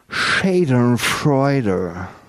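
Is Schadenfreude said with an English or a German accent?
English. The word is said with an English accent. "sondern Schadenfreude"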